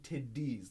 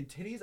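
First: "tiddies" with soft D's, not T's. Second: "titties" spelled and said with T's; the middle of "titties" as T, not D. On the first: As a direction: say "tiddies" with a D in the middle. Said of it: "like, with D's". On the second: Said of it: "I did tiddies, like, with D's". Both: Shown as a demonstration.

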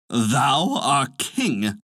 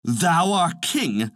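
First: Very drawn-out, mildly indignant cry; angry cry. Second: Slow, higher-pitched indignant cry; angrier cry. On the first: Birds answering the little fellow, mildly angry drawn-out cry. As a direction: stretch each word in understated outrage. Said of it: "cried the birds angrily". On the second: Birds answering from above the mouse hole, angry higher cry. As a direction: draw it out with mild, rising outrage. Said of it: "cried the bird still more angrily". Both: A narrator's reading.

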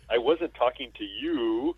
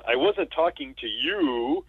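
First: Slow, dry put-down; slow deadpan retort. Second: Deadpan retort. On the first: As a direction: drag it out flatly. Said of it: "and then he says". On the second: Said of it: "Chevy Chase says". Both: Retold or imitated.

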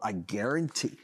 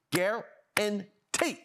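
First: Said in the usual way. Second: "guarantee" stretched very slow, higher, rising at the end; drawn-out emphasis. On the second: Shown as a demonstration. Host stresses his prediction to co-host, drawn out. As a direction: hold "guarantee" long and lift it.

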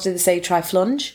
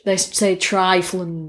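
First: "triflunge" with a short u, like "lunge"; northern "triflunge", flat u sound; northern vowel. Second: "triflange" with an open a, like "flange"; southern vowel. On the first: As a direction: say "triflunge", rhyming with "plunge". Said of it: "And up north". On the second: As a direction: say "triflange", rhyming with "range". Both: Shown as a demonstration.

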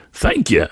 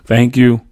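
First: Lightly happy "Thank you"; a cheerful thanks to the bartender; happily. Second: Put-on polite, louder child's "Thank you"; a kid's well-mannered thanks; politely. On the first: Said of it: "he responded happily". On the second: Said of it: "I said politely". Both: A narrator's reading.

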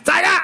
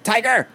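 First: Put-on very high squeaky Asian accent yell; east asian accent. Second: High yelled Asian accent imitation; east asian accent. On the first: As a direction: mimic her yell in a bad Asian accent. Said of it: "a really bad Asian accent". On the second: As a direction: yell it like a cartoon Asian accent. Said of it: "an attempt of just a yell or, like, a really bad Asian accent".

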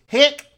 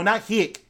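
First: "Hick" barked much higher and louder, Australian; corrected pronunciation. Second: "hick" as it was misheard, said loudly; rejected pronunciation. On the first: Correcting a listener, "Hick" shouted in Australian accent. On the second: Correcting a listener who misheard, "hick" said loudly. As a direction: loudly dismiss "hick" with the short i. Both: Shown as a demonstration. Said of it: "No, not hick".

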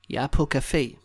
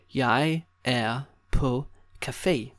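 First: Said in the usual way. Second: Slow, each word set apart. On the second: Shown as a demonstration. Teacher giving learners a coffee place phrase, word by word. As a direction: spell it out slowly for a learner.

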